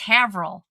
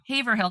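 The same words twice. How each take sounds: First: The word is said with syllables run together. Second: Every syllable of the word is clearly pronounced. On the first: This is how the speaker's brother says the name. "He's like, it's Haverhill" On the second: This is how the speaker says the name. "Haverhill because it's H A V E R"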